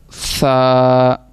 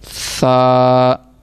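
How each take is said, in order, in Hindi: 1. पहली आवाज़ नरम th है। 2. पहली आवाज़ नरम th है।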